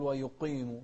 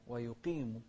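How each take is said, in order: First: ويقيم with a thickened, muddied "qee"; wrong qaf vowel. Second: ويقيم with a clean long "ee" after ق; correct qaf with kasra. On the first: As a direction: mistakenly darken the vowel after ق in ويقيم. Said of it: "لا". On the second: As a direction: keep the vowel of ويقيم pure after the ق. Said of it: "ما نقول ويقيم". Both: Shown as a demonstration.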